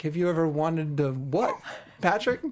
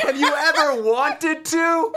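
First: Slow, puzzled repeat in a normal-sized voice; questioning, stretched out before the name; baffled echo. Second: High, slow, drawn-out mock call; pitched-up, lingering question with laughter in it; insistent come-on. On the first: Retold or imitated. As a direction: imitate a friend wondering what he just overheard. Friend repeats overheard question, baffled. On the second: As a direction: imitate a suitor calling after someone, stretching each word. Man calls proposition after fleeing teller.

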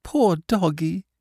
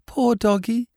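First: Higher and slower, a lightly voiced little boy; tearful small boy. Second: High, lightly voiced little boy near tears; a small child pitying the dog; tearful small boy. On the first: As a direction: repeat it slowly, sadly, like a small child. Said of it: "he said". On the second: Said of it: "He was crying". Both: A narrator's reading.

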